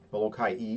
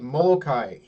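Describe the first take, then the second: First: The name ends with a separate 'ee' sound. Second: The name ends in a plain 'kai' sound.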